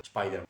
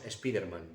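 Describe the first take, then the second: First: The name is said with English sounds. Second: The name is said with Spanish sounds. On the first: The speaker calls it right. "pronunciar correctamente" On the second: The speaker calls it wrong. "lo pronunciamos como lo leemos"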